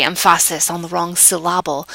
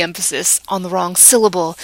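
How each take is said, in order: First: "emphasis" stressed on its middle syllable, "syllable" likewise; jokey misplaced stress on second syllables of "emphasis" and "syllable"; wrong-syllable stress joke. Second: Said in the usual way. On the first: Retold or imitated. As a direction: say em-FA-sis and sil-LA-ble in "emphasis on the wrong syllable". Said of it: "liked to be funny, and he would say". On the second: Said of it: "but really, what happens".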